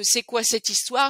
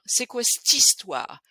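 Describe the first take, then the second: First: The vowel in 'cette' is fully pronounced. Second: The vowel in 'cette' is dropped, giving 'st'.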